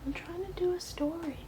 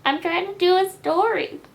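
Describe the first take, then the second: First: Whispered, high and soft; whispering. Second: High, loud exasperated; loud scolding. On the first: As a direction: hush it to the cat. Whispers same line again. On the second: Loud take of line. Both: Real, not acted.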